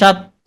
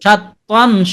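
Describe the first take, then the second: First: The word ends with a vowel, no n. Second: The word ends with an n sound. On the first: The reader stops on this word. "আর থেমে গেলে সাত ত" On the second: The reader continues without stopping. "আসল উচ্চারণ সাত তন"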